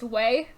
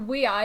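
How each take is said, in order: First: The name is said as one syllable. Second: The name is said as two syllables. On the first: The speaker calls it wrong. "not just way because that's what it looks like" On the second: The speaker calls it right. "you pronounce this your we I"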